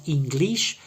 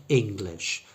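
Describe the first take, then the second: First: "English" as EEN-gleesh, pitched high; two long ee vowels in "English"; wrong long E. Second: "English" as ING-glish, two short I vowels; correct short I. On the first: Teacher showing the mistake to avoid, long E sounds. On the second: Teacher giving the corrected word, short I sounds. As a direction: keep both vowels in "English" short and relaxed. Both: Shown as a demonstration. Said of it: "but has two short I sounds".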